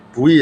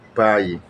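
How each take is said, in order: First: It is read as spelled, 'boo-ee'. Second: It is said with one diphthong, 'bye'. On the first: This is how the spelling looks. The speaker calls it wrong. "ditulis bui" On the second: This is how the word is spoken. The speaker calls it right. "Tapi diucapkan buy"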